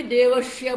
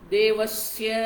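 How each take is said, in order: First: देवस्य said as "devashya"; mispronounced SH. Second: देवस्य with a dental "s" before the y; correct dental S. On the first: Retold or imitated. Teacher imitating Brahmins' mistake, देवस्य as "devashya". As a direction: turn the स of देवस्य into a retroflex "sh". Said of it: "षटकोण का श वो बोलते हैं". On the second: Shown as a demonstration. Teacher showing the mantra word, देवस्य with clear "sya". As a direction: say देवस्य with the tongue at the teeth for स. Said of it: "सरस्वती का स बोलना है, दंत्य है".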